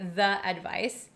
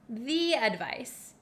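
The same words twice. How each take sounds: First: The word 'the' is pronounced 'thuh'. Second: The word 'the' is pronounced 'thee'. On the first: "Some people in America do say the advice" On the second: "in front of a vowel"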